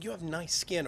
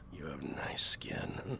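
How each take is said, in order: First: It is said in a friendly, casual tone. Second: It is said in a creepy, leering tone. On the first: A harmless compliment. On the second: An unsettling, inappropriate compliment.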